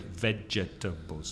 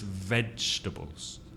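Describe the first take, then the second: First: The word is said with four syllables. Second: The word is said with three syllables. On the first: The speaker calls it wrong. "the mistake many Spanish speakers make is to put four syllables" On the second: The speaker calls it right. "No, it's vegetables"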